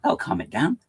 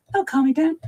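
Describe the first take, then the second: First: Said in the usual way. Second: That'll calm it down said much higher; high squeaky repeat. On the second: Shown as a demonstration. Streamer mocks himself for being hyper, squeaky. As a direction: squeak it back up ironically. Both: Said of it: "talking very fast".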